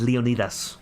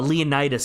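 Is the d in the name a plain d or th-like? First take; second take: th-like; plain d. First: The d sounds almost like th. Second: The d is a plain d sound.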